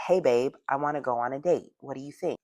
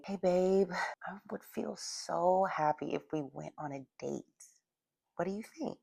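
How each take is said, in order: First: Said in the usual way. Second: Slow and soft, drawing him in; soft, slow, higher voice. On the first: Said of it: "That's different than saying". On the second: Shown as a demonstration. Coach shows how to ask a man on a date, soft and slow. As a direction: coax him gently at a slower pace. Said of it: "I'm slowing down and I'm giving him a higher pitch voice".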